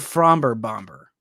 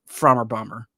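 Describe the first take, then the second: First: The b sound in the first word is pronounced. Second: The b sound in the first word is silent. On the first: "you could pronounce the the B" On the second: "or Frommer Bomber"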